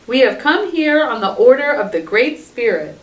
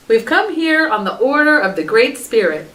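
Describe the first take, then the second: First: Announcing formally. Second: Declaring formally. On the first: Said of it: "Dog announced". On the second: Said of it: "they declared". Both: A narrator's reading.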